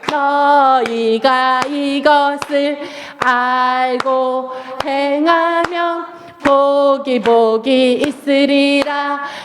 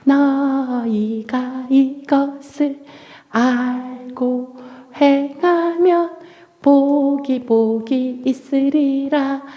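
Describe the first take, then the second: First: It is spoken at a normal volume. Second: It is spoken in a very quiet voice.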